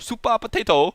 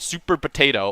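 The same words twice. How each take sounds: First: It is said with a Japanese accent. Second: It is said with a plain English accent.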